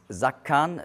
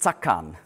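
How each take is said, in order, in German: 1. Das Wort beginnt mit einem summenden z-Laut. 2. Das Wort beginnt mit einem scharfen ts-Laut. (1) "sondern Zakan wie auf Englisch Zero" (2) "nicht Zakan"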